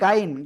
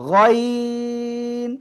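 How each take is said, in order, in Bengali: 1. এটি খোলা 'gai' ধ্বনি দিয়ে উচ্চারিত হয়। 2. এটি গোলাকার ও টানা 'ghoy' ধ্বনি দিয়ে উচ্চারিত হয়। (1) "অনেকে বলেন গাইন, গাইন বলা যাবে না" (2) "এটা কি গয়ন"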